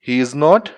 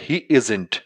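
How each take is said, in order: First: Every word is said separately in full. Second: The last two words merge into one contracted word.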